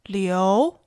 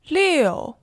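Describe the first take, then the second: First: The pitch rises from mid to high. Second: The pitch falls sharply from high.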